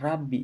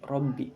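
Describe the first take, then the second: First: The R sounds light and thin. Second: The R sounds heavy and thick. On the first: The speaker calls it wrong. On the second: The speaker calls it right. "tapi robbi (tafkhim)"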